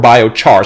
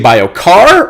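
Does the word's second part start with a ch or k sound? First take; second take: ch sound; k sound. First: The second part starts with a ch sound. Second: The second part starts with a k sound. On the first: "char like charcoal" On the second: "car like a car"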